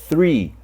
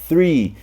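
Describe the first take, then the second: Both takes have the same delivery.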